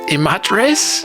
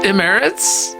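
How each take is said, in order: First: It is pronounced the Spanish way. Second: It is pronounced the English way.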